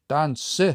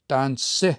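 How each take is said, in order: The two takes are said the same way.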